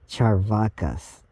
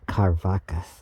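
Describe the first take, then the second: First: The word begins with a ch sound. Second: The word begins with a k sound. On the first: "C is pronounced like cha, so it's Charvakas" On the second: "and not Karvakas"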